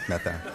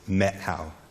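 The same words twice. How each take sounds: First: It is pronounced the way tourists say it. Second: It is pronounced the way locals say it. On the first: The speaker is an outsider. The speaker calls it wrong. "they'll know if you're a tourist if you pronounce it" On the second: The speaker knows the place. The speaker calls it right. "the pronunciation, if you're a local, is"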